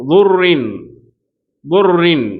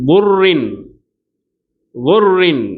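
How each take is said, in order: No difference in how they are said.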